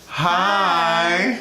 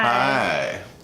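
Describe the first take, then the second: First: It is said with high energy. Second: It is said with low energy.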